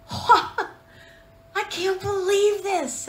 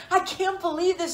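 First: Breaking into a laugh mid-line, pitched higher; retold giddy laugh through the words; laughing disbelief. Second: Said in the usual way. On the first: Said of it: "and I remember saying". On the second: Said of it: "Have you ever done that?".

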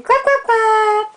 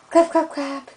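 First: High, slow, cheering clap clap. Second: Said in the usual way. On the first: Real, not acted. High excited cheer to baby.

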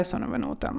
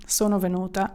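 First: Breathy whispered sono venuta. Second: Said in the usual way. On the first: Shown as a demonstration. Teacher whispering the risqué phrase to her students. Hinting at a risqué double meaning.

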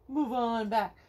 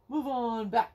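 The two takes are said the same way.

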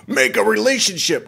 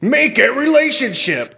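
First: High put-on voice mocking a bot; mock scam voice. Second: High mock-sultry read of a scam bio; mocking profile read. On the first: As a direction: sneer it like a fake profile. Mocking scam profile again. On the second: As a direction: read it like a cheesy bot.

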